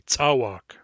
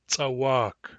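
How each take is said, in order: First: The stress is on the first syllable. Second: The stress is on the second syllable. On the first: This is the English-accented pronunciation. The speaker calls it wrong. "they stress it on the first syllable and they say tsawak" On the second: This is the native-accented pronunciation. The speaker calls it right. "we're putting the word stress on the second syllable"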